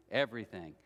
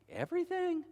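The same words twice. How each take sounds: First: Everything dropped much lower; "everything" said low and falling; low repetition. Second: Everything flung up high; "everything" sung out much higher, falling; emphatic repetition. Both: Acted. Pastor repeats word in varied pitch.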